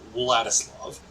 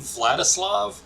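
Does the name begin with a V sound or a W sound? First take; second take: W sound; V sound. First: The name begins with a W sound. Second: The name begins with a V sound. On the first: "You have to put the W at the beginning before the L" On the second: "the name Vladislav"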